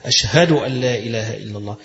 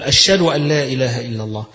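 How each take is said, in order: First: أشهد with a clearly sounded ه; careful أشهد, the ه clearly heard. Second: أشهد said as ashed, the ه swallowed; أشهد with the ه missing, a careless slip; dropped h. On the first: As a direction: breathe the ه in أشهد out fully. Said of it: "يبقى تتقن فيها". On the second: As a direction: drop the ه in أشهد. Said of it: "فين الهاء وديتها". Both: Shown as a demonstration.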